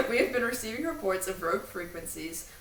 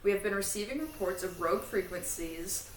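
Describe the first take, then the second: No difference in how they are said.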